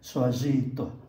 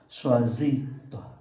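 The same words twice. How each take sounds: First: The word toi is said with stress. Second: The word toi is said lightly, unstressed. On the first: The speaker calls it wrong. "chứ không phải" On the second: The speaker calls it right. "do đó mình đọc nhẹ"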